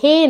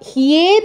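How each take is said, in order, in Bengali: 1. এটি সাধারণ 'he', কোনো গ্লাইড নেই। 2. এটি 'hye', 'y' গ্লাইড সহ। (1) "তুমি হে বলছো, হে নয়" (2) "হিয়ে হিয়ে হিয়ে"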